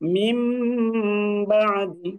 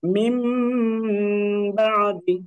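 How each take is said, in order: Both takes have the same delivery.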